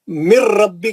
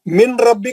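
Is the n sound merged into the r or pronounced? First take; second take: merged; pronounced. First: The n merges fully into the following r. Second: The n is pronounced clearly before the r. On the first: The speaker calls it right. "मिर रा में चले जाना, नून का आवाज नहीं आना" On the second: The speaker calls it wrong. "मिन रब्बी का नहीं"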